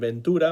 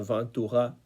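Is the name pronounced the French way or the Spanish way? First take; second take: Spanish; French. First: The name is pronounced the Spanish way. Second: The name is pronounced the French way. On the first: "voy a decirlo a la española" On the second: "la pronunciación sería Ventura"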